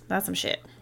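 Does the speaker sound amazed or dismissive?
dismissive. It is said in a dismissive, scornful tone. The story was bad. The speaker calls it wrong. "Not like"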